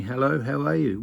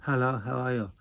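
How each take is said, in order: First: Said in the usual way. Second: Softer mock Chinese accent; imitating a Chinese accent; lightly put-on Chinese accent, kept quiet. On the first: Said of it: "Why don't you just say". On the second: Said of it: "narrow your eyes and go".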